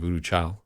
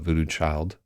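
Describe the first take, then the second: First: The word 'child' ends without a D sound. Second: The word 'child' ends with a clear D.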